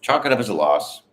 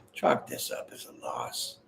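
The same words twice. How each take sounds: First: Said in the usual way. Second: Soft, low, whispered repeat of Chalk this up as a loss. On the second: Shown as a demonstration. Reader repeats the card's message for the viewer in a whisper. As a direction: breathe the line out as a secret aside.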